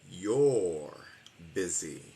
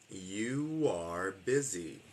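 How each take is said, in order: First: You and are merge into one short syllable. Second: You and are are two separate full words.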